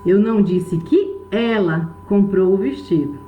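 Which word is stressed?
ela. The stress falls on the word ela. Someone else bought it, not her. "Pode ter sido outra pessoa que comprou, mas ela não"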